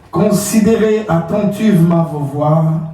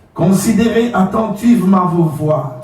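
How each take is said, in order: The two takes are said the same way.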